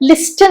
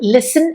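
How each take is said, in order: First: The t sound is pronounced in the middle. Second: The t sound is silent in the middle. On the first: The speaker calls it wrong. "അതുകൊണ്ടാണ് നമ്മൾ ലിസ്റ്റൻ എന്ന് പറയാത്തത്" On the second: The speaker calls it right. "ലിസൺ എന്ന് മാത്രമേ പറയുള്ളൂ കേട്ടോ. ടി silent ആണ്"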